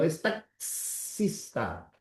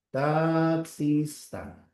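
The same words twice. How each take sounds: First: Taxista slow, the x as ks; drawn-out taxista; slow dictation. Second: Taxista drawn out with a clear ks; slow dictation. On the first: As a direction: say taxista very slowly. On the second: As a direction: stretch Taxista syllable by syllable. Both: Shown as a demonstration. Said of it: "la X vale por dos".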